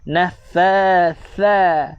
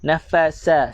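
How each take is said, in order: First: The last consonant is a th with tongue out. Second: The last consonant is an s between teeth. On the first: The speaker calls it right. "lidah kena keluar" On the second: The speaker calls it wrong. "Gigi jumpa dengan gigi, tuan-tuan baca dengan huruf sin"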